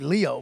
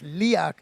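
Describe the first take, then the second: First: The name ends on a vowel sound. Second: The name ends with a consonant sound. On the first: The speaker calls it wrong. "I thought it was going to be Leo" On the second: The speaker calls it right. "but it's Liak"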